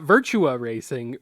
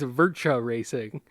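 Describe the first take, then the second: First: Virtua is said with a usual English pronunciation. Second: Virtua is said with a Japanese-style pronunciation. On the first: This is how the speaker expects it to be said. "not Virtua Racing" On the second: This is how the game's announcer voice says it. "he says it as Virtua Racing"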